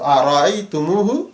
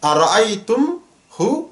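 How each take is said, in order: First: It is said smoothly, linked by an added u. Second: It is said haltingly, with a break before hu. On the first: The speaker calls it right. "সুকুনটাকে তুলে দিয়ে দম্মা এনেছি" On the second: The speaker calls it wrong. "একটু থেমে থেমে বলতে হবে"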